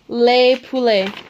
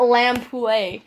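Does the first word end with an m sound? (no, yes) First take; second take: no; yes. First: The first word ends in a plain vowel. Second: The first word ends with an m sound. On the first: The speaker calls it right. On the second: The speaker calls it wrong.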